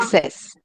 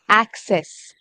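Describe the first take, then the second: First: The first vowel sounds like 'eh'. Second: The first vowel sounds like 'ah'. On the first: The speaker calls it wrong. "You're saying excess. It's not excess" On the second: The speaker calls it right. "ah, access"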